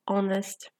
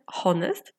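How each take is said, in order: First: The word begins with a vowel, no h. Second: The word begins with an audible h sound. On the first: The speaker calls it right. "tylko honest" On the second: The speaker calls it wrong. "ale nie wymawiamy honest"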